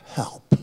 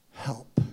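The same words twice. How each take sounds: First: Breathy, unvoiced Help; desperate whispered plea; whispered cry. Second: Said in the usual way. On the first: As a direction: breathe out Help like a last prayer. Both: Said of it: "you cry one simple prayer".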